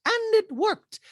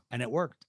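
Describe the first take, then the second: First: Very high mock-dramatic voice; exaggerated squeaky impersonation; Dorit. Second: Said in the usual way. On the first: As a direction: echo it as a high, hammed-up caricature. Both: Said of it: "And Dorit's like".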